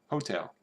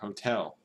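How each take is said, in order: First: The stress is on the first syllable. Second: The stress is on the second syllable. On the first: "when you go to like Kentucky" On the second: "the hotel is uh, emphasized"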